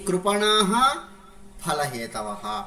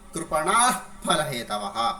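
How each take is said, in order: First: The final sound is a full breathy h. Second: The final sound is blown between the lips. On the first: "పూర్ణ విసర్గ" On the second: "उपध्मानीयमु पुट्टदु"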